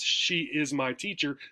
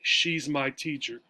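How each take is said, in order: First: She and is are said as two full words. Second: She and is are shrunk into one syllable. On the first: "with four words" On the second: "it'll come out, she's my teacher"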